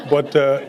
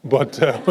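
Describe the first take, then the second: No difference in how they are said.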